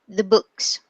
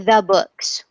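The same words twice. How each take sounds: First: The vowel in 'the' is a weak schwa. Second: The vowel in 'the' is full and clear. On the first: The speaker calls it right. "we say the books, the books. So books is stressed and the is unstressed" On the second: The speaker calls it wrong. "usually we don't say the books"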